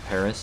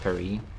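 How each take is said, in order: First: The final s is clearly sounded. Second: The final s is silent.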